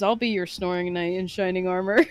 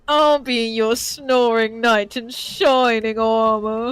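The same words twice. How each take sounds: First: It is said in the speaker's normal voice. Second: It is said in the Birdly character voice.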